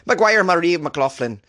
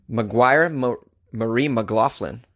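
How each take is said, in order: First: High, drawn-out mock Irish accent. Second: Said in the usual way. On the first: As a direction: put on a bad Irish accent, pitched up and slow. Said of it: "What do you think of this Irish accent".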